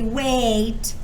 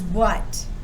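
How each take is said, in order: First: The vowel is a long A, as in cake. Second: The vowel sounds like U, as in cup. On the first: The speaker calls it wrong. "It doesn't say a. It doesn't say wait" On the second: The speaker calls it right. "It almost sounds like a U sound"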